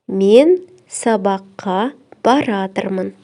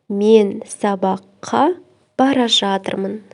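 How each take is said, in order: First: The verb is said contracted into one word. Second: The verb is said in full, unreduced.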